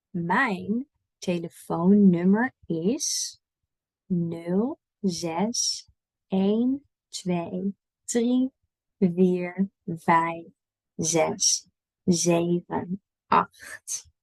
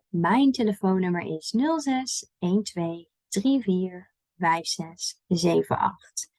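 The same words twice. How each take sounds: First: Very slow, digit by digit; spaced out with pauses for repeating; slow model reading. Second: "nul zes, één twee, drie vier" grouped two by two; digits in pairs. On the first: Teacher gives learners a phone number, slowly digit by digit. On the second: Teacher shows learners phone numbers, digits split in pairs. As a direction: run each pair together, short break between pairs. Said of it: "we usually split them up in pairs". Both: Shown as a demonstration.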